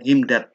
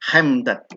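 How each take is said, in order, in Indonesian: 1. Dimulai dengan bunyi h yang ringan dan berdesah. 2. Dimulai dengan bunyi kh yang kasar dan dari tenggorokan. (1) "bukan h, bukan himdad" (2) "Itu pakai kh, tapi hemdad"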